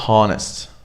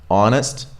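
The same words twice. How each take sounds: First: An H sound is heard at the start. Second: No H sound is heard at the start. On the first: The speaker calls it wrong. "So we don't go like honest" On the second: The speaker calls it right. "You just drop it"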